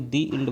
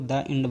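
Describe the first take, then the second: First: 'The' is said with a long 'ee' vowel. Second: 'The' is said with a short 'uh' vowel. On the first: The speaker calls it right. "दी end आपका क्या माना जाएगा, सही माना जाएगा" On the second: The speaker calls it wrong. "अगर आप इसको द इंड बोल रहे हैं ना ... ये गलत है"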